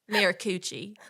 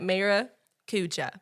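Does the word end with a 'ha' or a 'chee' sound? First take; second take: chee; ha. First: The word ends with a 'chee' sound. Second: The word ends with a 'ha' sound. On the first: This is the speaker's own habitual way of saying it. "I say Maracucci" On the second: This is how other people say it. "my friends call it Maracuja"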